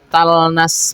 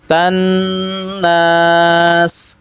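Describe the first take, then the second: First: The L is heard clearly before the N. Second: The L is merged fully into a doubled N. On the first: The speaker calls it wrong. "kenapa tidak dibaca talnas" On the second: The speaker calls it right. "Huruf lamnya sudah dimasukkan kepada huruf nunnya secara sempurna"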